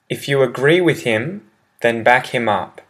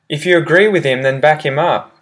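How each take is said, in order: First: It is said at a slow, careful pace. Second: It is said at a fast pace.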